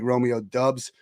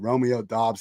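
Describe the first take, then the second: First: The surname has the vowel of 'subs'. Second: The surname has the vowel of 'jobs'. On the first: The speaker calls it wrong. "I prefer Dubs because it's like Dubs, W's" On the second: The speaker calls it right. "I understand it's Dobbs"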